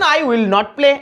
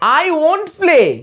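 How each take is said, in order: First: Will and not are said as separate words. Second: Will and not merge into one short word. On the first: "কেটে কেটে খুব সহজেই বলতে পারবেন" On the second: "এই উইল আর নটকে আমরা একসাথে কি বলি দেখুন, বলি ওন্ট।"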